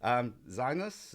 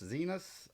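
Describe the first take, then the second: First: Slow, questioning "Zinus" with a long drawn "Zi"; first guess at a name. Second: Softer, quick "Zinus" with a short "zi", rising like a question; second quieter try. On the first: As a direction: try out "Zinus" slowly like an unsure guess. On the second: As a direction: murmur "Zinus" again, checking the sound. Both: Shown as a demonstration. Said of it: "how do you pronounce it?".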